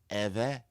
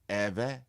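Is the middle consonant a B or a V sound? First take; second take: V; V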